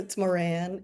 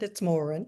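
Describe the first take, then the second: First: The name is said the American way. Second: The name is said the Irish way.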